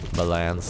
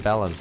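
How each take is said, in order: First: It is said with a French pronunciation. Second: It is said with an English pronunciation.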